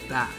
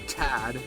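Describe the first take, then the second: First: The T is soft and not stressed. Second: The T is strongly stressed. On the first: "we do that" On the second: "we usually don't stress the T's out. Like we don't do tad"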